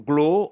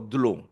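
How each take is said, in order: First: The word begins with a g sound. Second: The word begins with a d sound. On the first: "either glow as written here" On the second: "So glow or dlo"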